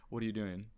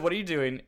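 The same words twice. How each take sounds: First: A soft, unbothered "What are you doing?"; mild understated question. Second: Higher, louder "What are you doing?" yelled; hammed-up shouted "What are you doing?"; mock scream. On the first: Retold or imitated. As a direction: play it down, barely above talk. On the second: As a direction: belt it out like the roommate did. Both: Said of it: "No, I screamed".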